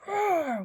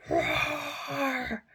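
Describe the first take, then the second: First: Bright, loud, high cartoon roar; playful roar. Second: Narrated roar. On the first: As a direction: roar it proudly like a singing bear. Noisy bear roars. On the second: Acted. Bear begins to sing.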